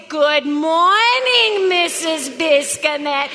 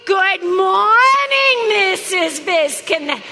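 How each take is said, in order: First: Slow, mocking Latvian-ish accent; mock foreign accent. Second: Loud, slow, drawn-out greeting. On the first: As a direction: imitate the students' foreign accent, slowly. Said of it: "Not in your Latvian little accent". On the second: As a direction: belt the greeting slowly in her own voice. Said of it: "I want it in mine, all right?". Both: Shown as a demonstration.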